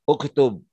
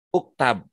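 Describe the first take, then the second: First: The second vowel is 'u'. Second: The second vowel is 'a'. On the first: The speaker calls it right. "harus dibaca uktub" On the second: The speaker calls it wrong. "uktub nggak bisa dibaca uktab"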